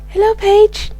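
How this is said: It is said in a put-on character voice. The speaker calls it wrong. "No, that sounds too much like Helen"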